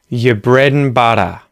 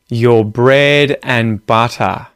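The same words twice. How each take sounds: First: The phrase is said at a faster pace. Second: The phrase is said at a slower pace.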